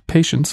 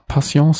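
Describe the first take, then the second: First: The name is pronounced the English way. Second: The name is pronounced in a non-English way.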